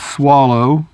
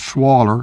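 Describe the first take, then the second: First: The word ends with an 'oh' vowel sound. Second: The word ends with an 'er' sound. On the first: "depending on what part of the South you're from" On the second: "depending on what part of the South you're from"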